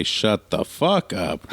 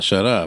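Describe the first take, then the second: First: "Shut the fuck up" slowed right down; drawn-out correction. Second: Said in the usual way. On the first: Shown as a demonstration. Joking parent teaching the proper cuss, slow and deliberate. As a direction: stretch out "Shut the fuck up" word by word. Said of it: "make sure you say".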